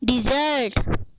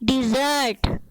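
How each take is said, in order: First: The first syllable has an 'i' vowel. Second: The same.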